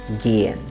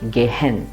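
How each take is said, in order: First: The h is silent and the vowel is long. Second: The h is sounded between two split syllables. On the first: The speaker calls it right. "the vowel sound is long. So let's pronounce it" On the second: The speaker calls it wrong. "most of us will instinctively pronounce it as Gehen. We will break the word at the Ge"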